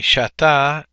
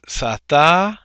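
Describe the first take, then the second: First: Shata with a clear sh sound at the start; corrected shata. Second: Sata with a plain s, the mistaken reading; wrong sata. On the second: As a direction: say sata with a hissed s, as a slip. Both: Shown as a demonstration. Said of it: "I mean shata".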